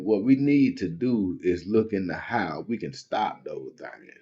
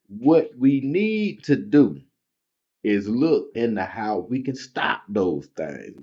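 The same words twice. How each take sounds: First: It is read at normal speed. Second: It is read very slowly.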